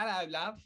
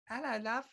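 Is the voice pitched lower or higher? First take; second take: lower; higher. First: It is said at a lower pitch. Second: It is said at a higher pitch.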